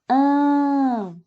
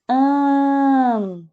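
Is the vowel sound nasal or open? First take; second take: nasal; nasal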